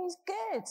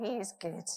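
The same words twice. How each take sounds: First: Chanted, He's good called out much higher, as the church answer; chanted, ring out He's good like the congregation's reply; chanted refrain. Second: Said in the usual way. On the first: Acted. Chanted, preacher echoes the church's answer, called out high. What did we say this morning to him?.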